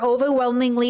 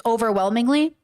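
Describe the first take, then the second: First: Said in the usual way. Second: "Overwhelmingly" echoed as a doubtful question. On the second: Real, not acted. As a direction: query "Overwhelmingly" with a rising end. Queries the word just read.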